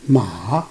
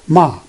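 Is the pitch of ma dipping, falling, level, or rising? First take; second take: dipping; level. First: The pitch dips down and then rises. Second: The pitch stays high and level throughout. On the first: It means horse. "Coming down and then go up" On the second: It means mother. "It's a horizontal bar"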